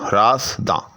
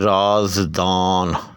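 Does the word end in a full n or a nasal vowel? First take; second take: nasal vowel; full n. First: The word ends with a nasalized vowel, no n. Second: The word ends with a fully pronounced n sound. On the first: The final sound adds no weight to the meter. "दां और दा दोनों एक चीज़ है" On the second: The final n counts as a separate letter in the meter. "अगर उस नून में नुक्ता डाला हुआ हो... तो फिर वो एक मुस्तकिल हर्फ होगा"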